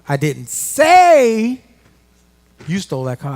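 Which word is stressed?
say. The word 'say' is stressed.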